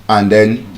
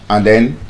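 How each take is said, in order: The two takes are said the same way.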